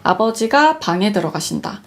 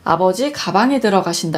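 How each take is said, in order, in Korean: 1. 끊어지는 자리는 음절 ga 뒤에 옵니다. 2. 끊어지는 자리는 음절 ga 앞에 옵니다.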